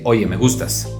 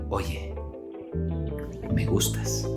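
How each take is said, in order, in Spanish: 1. La voz es fuerte y brusca, no está baja. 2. La voz está baja, suave y modulada con delicadeza. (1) "No voy a decir" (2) "A lo mejor bajaba, modulaba, y decía"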